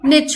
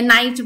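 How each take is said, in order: First: It has a short 'i' vowel and ends in 'ch'. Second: It has an 'eye' vowel and ends in 'ch'. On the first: The speaker calls it right. "या फिर निच होता है" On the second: The speaker calls it wrong. "बहुत लोग इसको गलत भी प्रोनाउंस करते हैं"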